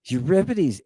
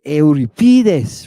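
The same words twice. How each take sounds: First: Euripides as "you-RIP-i-deez"; English Euripides with stress on RIP; English pronunciation. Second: Euripides as "eh-oo-ri-PEE-thes"; slow Euripides with a strong long "PEE"; Greek pronunciation. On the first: Teacher giving the familiar English name, Euripides as "you-RIP-i-deez". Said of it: "Not like we are". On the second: Teacher returning to the Greek form, Euripides as "eh-oo-ri-PEE-thes". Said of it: "how do they pronounce it? Not like we are". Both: Shown as a demonstration.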